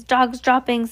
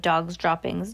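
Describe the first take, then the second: First: Shouting. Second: Said in the usual way. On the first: Acted. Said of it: "they shouted". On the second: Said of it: "taken up the dreaded cry of".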